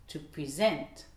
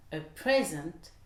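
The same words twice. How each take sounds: First: SENT stressed in "present", PRE light; verb stress. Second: PRE stressed in "present", SENT light; noun stress. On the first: Teacher contrasts verb with noun, stress on SENT in "present". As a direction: hit the end: to pre-SENT. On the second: Teacher contrasts noun with verb, stress on PRE in "present". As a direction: hit the start: a PRE-sent. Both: Shown as a demonstration. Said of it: "Vous voyez la différence?".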